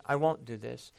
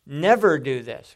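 First: Said in the usual way. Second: "Never" punched loud, then falling; stress on Never. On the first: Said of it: "it was a declaration". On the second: Shown as a demonstration. Peter's answer gone to another degree, emphatic "Never". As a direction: hit "Never" hard as the stronger vow. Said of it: "Now this is".

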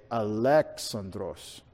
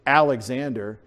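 First: Alexandros slow and low, as a-LEX-an-dros; drawn-out "Alexandros", punching LEX; Greek pronunciation. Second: Alexander as AL-ex-AN-der; English "Alexander", opening on a flat-A AL; English pronunciation. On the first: Preacher shows how they say it, Greek pronunciation. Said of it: "they say Alexandros". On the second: Preacher shows how we say it, English pronunciation. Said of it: "We say Alexander". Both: Shown as a demonstration.

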